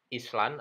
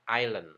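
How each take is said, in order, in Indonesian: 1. Bunyi s dibunyikan di dalam kata. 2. Bunyi s tidak dibunyikan di dalam kata. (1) "masih ada yang membaca dengan pengucapan Island" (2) "pengucapan yang benar tanpa S"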